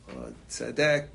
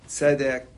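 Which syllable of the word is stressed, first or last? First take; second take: last; first. First: The stress is on the last syllable. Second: The stress is on the first syllable. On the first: The speaker calls it wrong. "with the accent at the end of the word" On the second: The speaker calls it right. "any word with two segals is malel"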